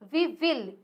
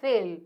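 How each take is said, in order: First: It is said as two full words. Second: It is said as one contracted word.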